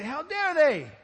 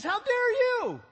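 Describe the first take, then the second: First: Loud, high indignant cry; outraged Pharisees. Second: Much higher, louder furious retort; Jesus rebuking. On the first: Pharisees protesting the disciples' unwashed hands, loud indignant shout. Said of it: "And the Pharisees say". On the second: Jesus turning the Pharisees' outrage back, furious shout. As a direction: throw it back at them, hard. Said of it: "And Jesus says". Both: Retold or imitated.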